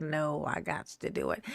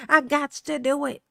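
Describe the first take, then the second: First: Low, soft self-talk; retold low resolve. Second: Raised-voice repeat, livelier; retold insistence. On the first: Streamer retells overruling procrastination, low resolve. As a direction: say it low to yourself. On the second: Streamer retells overruling procrastination, insistent. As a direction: lift it up as a mock declaration.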